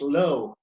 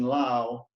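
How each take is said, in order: First: The name rhymes with snow. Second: The name rhymes with cow. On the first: "pronounced low in, in the English manner" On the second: "the pronunciation Lao"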